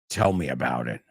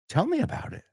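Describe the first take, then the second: First: It sounds sarcastic, with a sigh. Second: It sounds curious and genuinely interested. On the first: "siempre dejas un, un suspiro ahí" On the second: "oh, I'm interested. Please"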